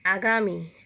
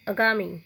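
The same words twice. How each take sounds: First: आगामी with a long aa at the start; open, long first vowel on आगामी; आगामी said right; correct pronunciation. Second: आगामी said with a short a at the start, əgami; clipped first vowel on आगामी; आगामी as the wrong form; wrong pronunciation. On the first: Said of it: "उसको शुद्ध कैसे करते हैं". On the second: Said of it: "अशुद्ध शब्द". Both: Shown as a demonstration.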